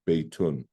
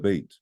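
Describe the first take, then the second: First: The word ends with an added 'un' sound. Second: The word ends without an added 'un' sound. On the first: The speaker keeps going after the word. "because I was continuing to say something after bait, I did say the tenwing" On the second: The sentence ends with this word. "if I was just going to say this is a house"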